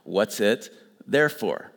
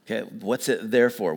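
First: "What's it there for?" said slowly, "there" and "for" as two separate words; slow down and pull "there for" apart, stress on "there"; split into there for. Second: Said in the usual way. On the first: Shown as a demonstration. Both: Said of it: "you ask a question".

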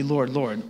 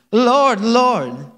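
First: Said in the usual way. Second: LORD, LORD louder and higher in an exaggerated accent; put-on accent. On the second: Real, not acted. Preacher reading scripture aloud, slips into an accent. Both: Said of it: "I don't know why I did that accent".

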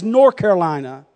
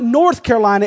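First: North without its th, "Nor' Carolina"; "North Carolina" run together as Nor-Carolina, falling; Southern local pronunciation. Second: North with the th sounded, pitched up; "North Carolina" carefully, every sound in North; standard pronunciation. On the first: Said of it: "that southern, good old North Carolina". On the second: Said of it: "It's not North Carolina". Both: Shown as a demonstration.

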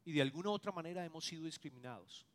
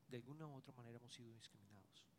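First: Said in the usual way. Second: Quiet echo. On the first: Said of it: "preacher states point, then echoes it". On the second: Shown as a demonstration. Pastor echoing his point to the congregation, hushed. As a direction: repeat it much softer, fast. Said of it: "preacher echoes the line quietly".

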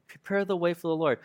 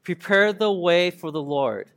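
First: Said in the usual way. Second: Slow, measured scripture reading; reading together. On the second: Shown as a demonstration. Preacher leading everyone through the verse, slow unison reading. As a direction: lead a group recitation, slowly and evenly. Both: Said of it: "read it together".

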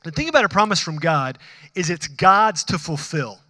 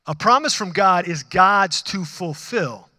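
First: Said in the usual way. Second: Each word of "A promise from God is God's to fulfill" laid down slowly and deliberately; slow it right down and land every word; slow, emphatic restatement. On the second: Shown as a demonstration. Pastor stressing the point to his congregation, slow and emphatic. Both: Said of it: "this is what's gonna be important".

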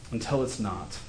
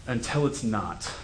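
First: Softer repeat of Until it's not, falling; a hushed second take; quieter echo. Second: Said in the usual way. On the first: Shown as a demonstration. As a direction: let the echo sink.

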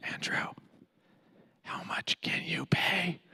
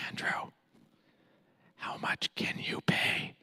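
First: Hushed whisper in my other ear. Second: Hushed whisper in my ear. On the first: Friend whispers the same question into my other ear. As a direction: lean in and whisper it again. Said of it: "he leans over and, no joke, in my other ear". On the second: Friend whispers the price into my ear. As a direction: lean in and whisper the question. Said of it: "whispers in my ear". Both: Retold or imitated.

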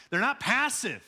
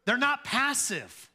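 First: "not" stressed and raised; emphatic. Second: "not" punched higher and slower; stress on NOT. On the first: Preacher telling the congregation plainly. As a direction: say "They're not passive" with force. First take. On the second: Preacher hammering "not" to the congregation. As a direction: hit "not" hard and slow. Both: Acted.

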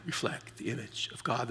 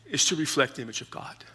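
First: A much softer echo of the line; soft repeat. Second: Said in the usual way. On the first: Shown as a demonstration. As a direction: let it fall away to a hush. Repeats the key line softly.

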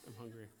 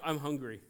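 First: Softer, lower aside; quiet repeat. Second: Said in the usual way. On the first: Shown as a demonstration. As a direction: mutter it again to yourself.

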